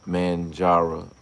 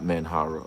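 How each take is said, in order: First: The middle consonant is a J sound. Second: The middle consonant is an H sound. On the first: The speaker calls it right. "Manjara, not Manhara" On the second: The speaker calls it wrong. "not Manhara"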